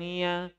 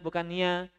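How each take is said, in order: First: The sound stays only in the mouth. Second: The sound goes into the nose. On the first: The speaker calls it right. "nggak boleh lagi masuk rongga hidung" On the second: The speaker calls it wrong.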